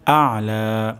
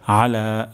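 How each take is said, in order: First: আলা begun with আইন from mid-throat, light stress; throat ain. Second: আলা with a plain alif, no throat আইন; wrong plain alif. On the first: Teacher showing the correct আলা. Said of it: "আইন উচ্চারণ হবে গলার মাঝখান থেকে". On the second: Teacher demonstrating the incorrect আলা. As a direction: say আলা flat, the way many get it wrong. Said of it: "এটি অশুদ্ধ হবে". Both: Shown as a demonstration.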